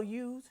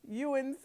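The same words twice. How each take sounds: First: "ewes" said as written; one syllable "ewes"; plain. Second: "ewens" with an extra n syllable, like "you-ens"; mispronounced word. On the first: Reading the verse aloud, "ewes" as written. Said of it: "I have a tendency of pronouncing that word wrong". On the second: Choosing to say it his own way, "ewens" with two syllables. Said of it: "I'm gonna say it that way". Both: Shown as a demonstration.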